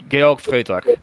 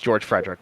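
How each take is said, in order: First: The name is pronounced with German sounds. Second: The name is pronounced with English sounds. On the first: "it's just it's the German version of George" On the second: "if we anglicized it"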